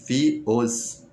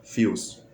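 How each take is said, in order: First: "Fios" broken apart as fi, os; split in two. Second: "Fios" as one joined syllable; said together. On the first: Teacher showing the mistaken split of fios, split in two. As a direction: say "Fios" in two separate pieces, fi and os. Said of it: "repartir assim no meio". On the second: Teacher correcting the split of fios, said together. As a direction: run "Fios" together in a single glide. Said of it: "você tá falando junto". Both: Shown as a demonstration.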